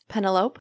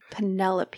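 First: The name is pronounced as it is spelled. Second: The name is pronounced in its usual way. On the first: The speaker calls it wrong. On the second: The speaker calls it right.

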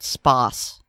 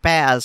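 First: The word ends with a hissing s sound. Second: The word ends with a buzzing z sound. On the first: "I've always heard it spas" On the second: "That's the first time I've ever heard it pronounced spaz"

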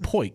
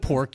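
First: The word is said with an 'oi' vowel. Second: The word is said with an 'or' vowel. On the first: The speaker calls it wrong. "you said poik" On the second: The speaker calls it right. "Instead of pork"

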